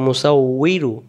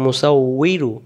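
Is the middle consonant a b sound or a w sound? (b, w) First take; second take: w; w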